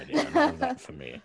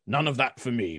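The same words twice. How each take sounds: First: High repeat. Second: Said in the usual way. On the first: Acted. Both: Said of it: "Ah, court flattery".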